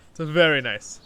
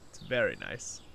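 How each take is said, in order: First: Louder, higher, stress on very; enthusiastic. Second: Said in the usual way. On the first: Shown as a demonstration. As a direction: lift it up and sell "very nice". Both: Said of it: "repeated with more emphasis".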